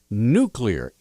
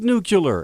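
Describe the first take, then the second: First: The second part sounds like the word clear. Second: The second part does not sound like clear. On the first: The speaker calls it right. "N U and then the word clear" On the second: The speaker calls it wrong. "it's not spelled nuclear"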